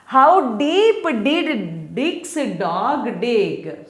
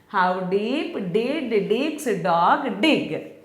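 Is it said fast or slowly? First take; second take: slowly; fast. First: It is said at a slow, normal pace. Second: It is said very fast.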